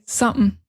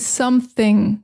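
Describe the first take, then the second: First: The word is shortened with sounds dropped. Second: The word is said fully with all sounds. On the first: "we say something" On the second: "Many times we don't even say something"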